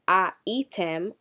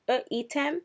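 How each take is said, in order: First: The first vowel is a full 'a' sound. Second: The first vowel is a reduced shva sound. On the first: The speaker calls it wrong. "Instead of it being a item" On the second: The speaker calls it right. "instead of the a, we're using a shva"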